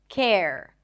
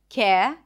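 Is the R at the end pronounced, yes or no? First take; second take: yes; no. First: The R at the end is pronounced. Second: The R at the end is dropped. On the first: It sounds like American pronunciation. "focus on bringing the tongue up for the R at the end" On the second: It sounds like British pronunciation. "Japanese speakers might just drop the R"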